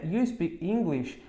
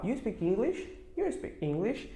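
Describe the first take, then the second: First: "You speak English" as a slow statement, falling at the end; entonação afirmativa. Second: "You speak English" soft and casual, rising as a question; pergunta coloquial. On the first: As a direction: say "You speak English" slowly as a plain fact, no questioning lift. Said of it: "a frase ela fica afirmativa". ("You speak English" em tom de afirmação, devagar) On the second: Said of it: "as pessoas omitirem o do e falar". ("You speak English" baixinho, como pergunta informal) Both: Shown as a demonstration.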